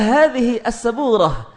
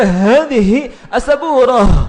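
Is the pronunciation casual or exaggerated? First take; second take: casual; exaggerated. First: It is said plainly and casually. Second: It is said with overdone, forceful articulation. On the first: The speaker calls it right. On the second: The speaker calls it wrong.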